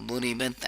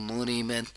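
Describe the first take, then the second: No difference in how they are said.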